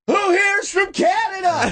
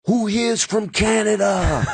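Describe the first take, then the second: First: Very high, slow shouted crowd call; onstage hype call. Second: Slow, high crowd-rousing call, not full shout; imitating Dice. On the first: Retold or imitated. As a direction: holler to a big theater, stretched out. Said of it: "I walk out, I go". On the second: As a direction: model a hype line for the opener. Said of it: "Go out there and be like".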